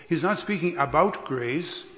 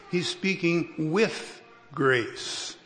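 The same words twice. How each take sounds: First: ABOUT stressed as the idea being rejected; contrastive stress on ABOUT. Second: Slow, deliberate WITH, pause before grace; emphatic stress on WITH. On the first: Preacher correcting a reading of Paul, contrastive stress on "about". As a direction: lean on "about" to set up a contrast. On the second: Preacher explaining Paul's attitude to congregation, slow stress on "with". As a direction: draw out "with" and let "grace" land separately. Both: Shown as a demonstration.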